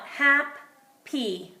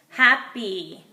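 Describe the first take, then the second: First: Hap-py split into two beats; hap, then py, with a break; sounding out. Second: Said in the usual way. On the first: Shown as a demonstration. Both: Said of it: "we could sound it out".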